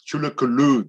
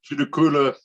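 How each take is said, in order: First: The name is said the original native way. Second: The name is said the anglicized European way. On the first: The speaker calls it right. "that is the correct pronunciation" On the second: The speaker calls it wrong. "Judikula is a European uh, version of the pronunciation"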